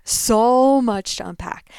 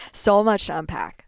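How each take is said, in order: First: Drawn out "So much to unpack", heavy on "So"; slow the phrase down and lean on "So"; "So much to unpack" slower and louder, stressing "So". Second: Said in the usual way. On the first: Shown as a demonstration.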